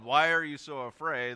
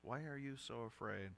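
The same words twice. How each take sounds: First: The question is shouted loudly. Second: The question is spoken softly and gently. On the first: "if Jesus yelled" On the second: "if he sort of gently says"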